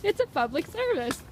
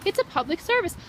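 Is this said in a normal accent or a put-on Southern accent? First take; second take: Southern; normal. First: It is said in an attempted Southern accent. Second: It is said in the speaker's ordinary accent.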